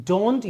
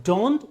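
Both takes have the same delivery.

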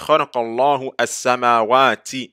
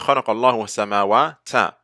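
First: The last word ends with an 'i' vowel. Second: The last word ends with an 'a' vowel. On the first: The speaker calls it right. "that's why we say" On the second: The speaker calls it wrong. "we don't say"

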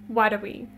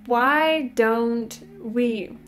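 First: The words are squeezed together into a reduced form. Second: Each word is pronounced fully and separately. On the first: The speaker calls it right. "Они говорят what are we?" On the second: The speaker calls it wrong. "носители так никогда не произносят эту фразу"

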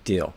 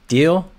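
First: It falls like an exclamation. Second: It rises like a question.

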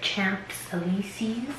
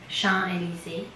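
First: It is pronounced the English way. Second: It is pronounced the French way.

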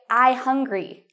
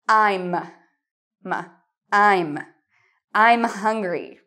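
First: The M sound after 'I' is left out. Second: The M sound after 'I' is pronounced. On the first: The speaker calls it wrong. "they don't pronounce the M. They say" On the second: The speaker calls it right. "But you really need to pronounce the M"

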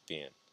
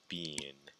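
First: It is said with an American pronunciation. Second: It is said with a British pronunciation. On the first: "in American English, we say been" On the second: "in British English, we say been"

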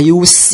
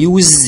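First: The word is said in its noun pronunciation. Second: The word is said in its verb pronunciation. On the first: It means the act of using. "لو نطقناها use يبقى استخدام" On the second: It means to use something. "لو احنا نطقناها use يبقى يستخدم"

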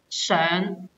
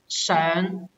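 First: It is said with the verb reading's tone. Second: It is said with the verb reading's tone.

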